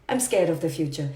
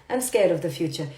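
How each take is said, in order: Both takes have the same delivery.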